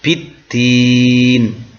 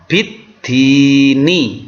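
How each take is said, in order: First: The word ends with a consonant sound. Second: The word ends with a vowel sound. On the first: "tetapi kita baca biddin" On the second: "ada biddini"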